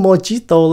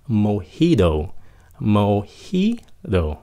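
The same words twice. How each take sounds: First: "mojito" said with an English ch-like j and hard t; mispronounced mojito. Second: "mojito" with J as H, slowly: mo-HEE-do; American pronunciation of mojito. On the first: Customer fond of mojito, mispronouncing it as mo-chee-to. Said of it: "không phải phát âm là mojito". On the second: Teacher demonstrating mojito, slow mo-HEE-do. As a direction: soften the t in "mojito" to a d. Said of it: "nó là âm H". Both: Shown as a demonstration.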